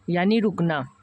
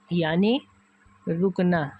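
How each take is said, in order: First: Said in the usual way. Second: यानी with a rising tone, a pause, then रुकना with a falling tone; slow emphatic repeat. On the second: Shown as a demonstration. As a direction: break यानी and रुकना apart to stress them. (यानी ... रुकना, रुककर ज़ोर देकर) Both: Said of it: "ठहराव मतलब रुक जाओ".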